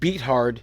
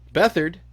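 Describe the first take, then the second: First: The name is said as two words, beat hard. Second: The name is said in its usual blended way.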